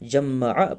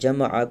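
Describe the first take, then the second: First: The middle m sound is held long, doubled. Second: The middle m sound is short, single. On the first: The speaker calls it wrong. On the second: The speaker calls it right.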